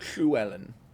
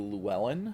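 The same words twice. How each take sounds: First: The first sound is a hissed, breathy L. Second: The first sound is a plain English L.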